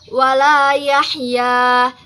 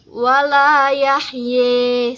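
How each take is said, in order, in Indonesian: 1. Vokal akhirnya terdengar seperti 'a' terbuka. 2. Vokal akhirnya condong ke 'e'.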